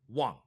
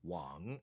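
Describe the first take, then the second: First: The pitch drops abruptly and sharply. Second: The pitch dips down and then rises. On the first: "tone four is a, is abrupt" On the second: "tone three is the right tone ... It dips"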